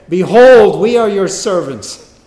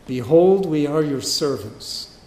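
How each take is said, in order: First: Higher, booming cry of submission; loud proclamation. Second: Said in the usual way. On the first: Acted. Brothers fallen down before Joseph, loud hammed-up declaration. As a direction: cry it out with a huge first word.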